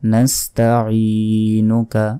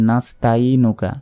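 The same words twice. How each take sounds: First: A throaty ain sound is clearly pronounced. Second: The throaty ain sound is left out. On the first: The speaker calls it right. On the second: The speaker calls it wrong.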